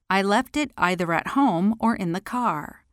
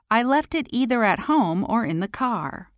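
First: "either" said as "eye-ther", with the vowel of "eye"; "either" pronounced "eye-ther". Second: "either" said as "ee-ther", with the vowel of "see"; "either" pronounced "ee-ther". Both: Shown as a demonstration. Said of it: "Both pronunciations are acceptable".

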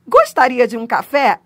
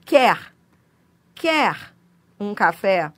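First: Courteous offer, louder and careful; polite offer. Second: Said in the usual way. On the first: Shown as a demonstration. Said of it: "ele indica polidez". (oferta educada e cortês) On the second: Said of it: "a troca do futuro do pretérito pelo presente".

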